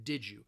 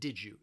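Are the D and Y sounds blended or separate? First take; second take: blended; blended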